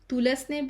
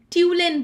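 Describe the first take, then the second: First: The S in the name is pronounced. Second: The S in the name is silent. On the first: The speaker calls it wrong. "sometime I used to call it Tulasne brother uh, for the spelling" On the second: The speaker calls it right. "we call it Tulane brothers. So the S is silent"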